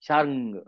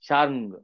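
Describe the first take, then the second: No difference in how they are said.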